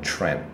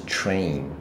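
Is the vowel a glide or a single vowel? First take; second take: single vowel; glide. First: The vowel is one short, unchanging sound. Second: The vowel glides from one sound into another. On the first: The speaker calls it wrong. "真的广播会念成train" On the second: The speaker calls it right. "不是train"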